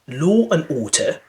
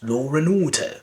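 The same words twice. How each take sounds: First: The words are said without an added R sound. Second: An R sound links law to and.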